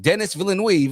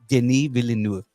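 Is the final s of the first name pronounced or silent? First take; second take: pronounced; silent. First: The s at the end of the first name is pronounced. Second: The s at the end of the first name is silent. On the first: The speaker calls it wrong. "they were like Dennis Villeneuve" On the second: The speaker calls it right. "he corrected somebody"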